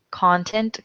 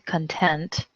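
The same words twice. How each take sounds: First: Content stressed CON-tent; first-syllable stress on content; noun stress. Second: Content stressed con-TENT, softer; second-syllable stress on content; adjective stress. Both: Shown as a demonstration. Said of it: "homographs list".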